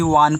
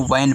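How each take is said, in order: First: वान read with a long open aa, the wrong way. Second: वैन read with a short flat ae vowel; correct reading. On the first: Teacher showing pupils the wrong vowel, long वान. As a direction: say वान as a child would misread it, long aa. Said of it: "नहीं तो आप भी वान पढ़ोगे". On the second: Teacher showing pupils the correct vowel in वैन. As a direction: say वैन with the ae sound, like van. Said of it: "तो इसको वैन पढ़ते हैं". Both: Shown as a demonstration.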